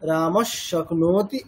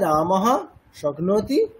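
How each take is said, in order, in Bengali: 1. শব্দ দুটো জোড়া লেগে যায়, h হয়ে যায় s। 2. শব্দ দুটো থেমে আলাদা হয়, প্রথমটি h দিয়ে শেষ হয়। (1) "একসাথে বললে" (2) "আলাদা করে বললে"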